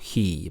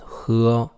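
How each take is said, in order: First: The vowel is said like an English vowel. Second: The vowel is said like a Chinese vowel. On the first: The speaker calls it wrong. "not he" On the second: The speaker calls it right. "but ... 喝"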